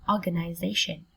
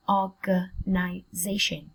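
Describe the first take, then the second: First: Said in the usual way. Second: Slow, organization split into separate syllables. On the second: Shown as a demonstration. Teacher sounding out a word for students, slowly in syllables. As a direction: break organization up for learners.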